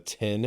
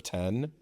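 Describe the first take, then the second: First: "tin" said with a short i, Midwestern style. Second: "ten." with a clear open e vowel; standard ten. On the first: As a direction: say "tin" for ten, the Midwestern vowel. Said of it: "you wanna say things like". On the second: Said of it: "instead of". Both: Shown as a demonstration.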